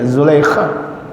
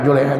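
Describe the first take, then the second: First: The name begins with a z sound. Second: The name begins with a j sound. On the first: The speaker calls it right. "Zulaikha yang benar" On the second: The speaker calls it wrong. "Ini orang Betawi manggil Julaiha"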